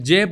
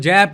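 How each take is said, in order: First: The vowel is a close, pure e sound. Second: The vowel is an open, broad ai sound. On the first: This is the usual pronunciation. "मैं जेब को" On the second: This is the speaker's own pronunciation. "जैब कहता हूँ, मेरी अपनी pronunciation है"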